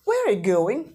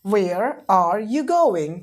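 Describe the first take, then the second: First: Said in the usual way. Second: Very slow, drawn-out teacher model; slow classroom demonstration; slow model sentence. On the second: Shown as a demonstration. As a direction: stretch every word for the class.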